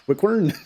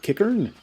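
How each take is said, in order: First: The name begins with a kw sound. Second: The name begins with a plain k sound.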